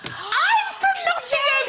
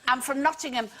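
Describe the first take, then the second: First: Very high, drawn-out mock shriek; overexcited recognition. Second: Said in the usual way. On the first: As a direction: squeal it like finding a long-lost neighbour. Overexcited discovery of a fellow local.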